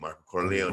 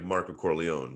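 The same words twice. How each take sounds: First: The name is said with a Spanish accent. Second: The name is said with an American accent. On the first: "in Mexico it was Marco Corleone, and uh, with the A" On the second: "if I said like American"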